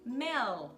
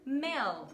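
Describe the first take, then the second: No difference in how they are said.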